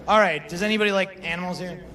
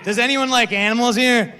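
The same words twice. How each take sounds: First: Said in the usual way. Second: Shouted, high and energetic; loud retry. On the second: Shown as a demonstration. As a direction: pump the crowd up louder. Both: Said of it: "we gotta do again".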